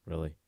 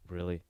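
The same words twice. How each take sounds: The two takes are said the same way.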